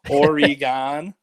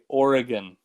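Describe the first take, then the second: First: It is said with a Midwestern pronunciation. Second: It is said the local way, without an 'e' sound. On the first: The speaker is from the Midwest. The speaker calls it wrong. "a really unique pronunciation that people from the Midwest have where they say Oregon" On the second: The speaker is local to Oregon. The speaker calls it right. "which is the pronunciation. There's no like e sound in there"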